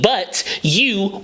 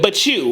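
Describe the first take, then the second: First: The T and the Y are said separately. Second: The T and Y blend into a CH sound. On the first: "In classic English, American English, it's B U T, but you, Y O U" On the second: "with the C H U"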